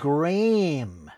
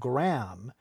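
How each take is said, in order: First: The name is said in the British way. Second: The name is said in a non-British way. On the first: The speaker calls it right. "You pronounce it Graham" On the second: The speaker calls it wrong. "You don't pronounce Graham Graham"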